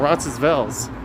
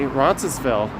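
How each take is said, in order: First: The S in the middle is silent. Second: The S in the middle is pronounced. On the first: "or no S?" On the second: "do you say the S"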